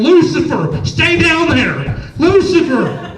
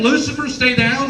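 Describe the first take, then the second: First: Loud, high calling out to a cat, drawn out on down; girlfriend calling the cat. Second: Baffled question, rising at the end; puzzled caller quoting. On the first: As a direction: call the cat back sternly from across the house. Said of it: "you would hear my girlfriend in the background". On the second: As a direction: repeat what you overheard in disbelief. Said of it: "Someone's on the other phone going". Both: Retold or imitated.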